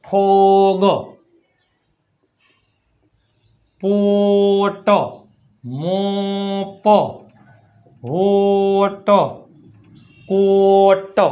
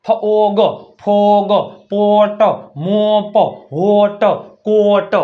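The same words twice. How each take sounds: First: Very slow "ફોગ, પોટ, મોપ", the O held long; stretched O vowel. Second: "ફોગ, ફોગ, પોટ" word by word with a long O; demonstrated O vowel. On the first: Teacher drilling the O rule, "પોટ" drawn out very slowly. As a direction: stretch "હોટ, કોટ" right out, final consonant released separately. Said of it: "ઓનો ઉચ્ચાર ઓ થાય". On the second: Teacher showing O between two consonants, "ફોગ" with a clear drawn O. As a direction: sound out "મોપ, હોટ, કોટ" with a held O in the middle. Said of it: "એનો ઉચ્ચાર શું થાય? ઓ". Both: Shown as a demonstration.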